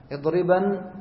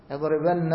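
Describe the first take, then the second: First: اضربن with a single short final nun, edriban; light nun. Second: اضربن with a doubled, held final nun, edribanna; heavy nun. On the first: Teacher contrasts with the light emphatic nun on اضربن. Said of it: "هذا نون التوكيد الخفيف". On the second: Teacher shows the heavy emphatic nun on اضربن. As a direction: lean on the long nn at the end of اضربن. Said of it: "ثقيل". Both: Shown as a demonstration.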